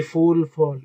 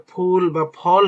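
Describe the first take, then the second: First: "ফুল, ফল" opening on English f, like fool; mistaken f sound. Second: "ফুল বা ফল" with a p plus puff of air, not f; correct aspirated ph. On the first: Teacher showing a common Bengali mistake, f instead of ph. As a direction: say "ফুল, ফল" with teeth-on-lip f. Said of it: "Bangla বলতে গিয়েও ভুল করি". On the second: Teacher correcting a common Bengali mistake, aspirated ph. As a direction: close both lips and release air on "ফুল" and "ফল". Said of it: "এর হলো উচ্চারণ আসলে". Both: Shown as a demonstration.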